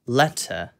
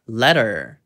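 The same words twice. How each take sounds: First: The middle T is pronounced clearly and crisply. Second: The middle T is softened, with a curled R. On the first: "영국식으로는" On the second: "미국식으로는"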